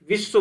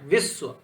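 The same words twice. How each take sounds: First: Said in the usual way. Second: Weight on the वि of विश्व; विश्व with its opening syllable pressed; stress on first syllable. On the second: Shown as a demonstration. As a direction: lean on वि, then release श्व. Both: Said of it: "वी पे क्या है".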